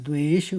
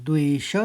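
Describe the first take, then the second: Both takes have the same delivery.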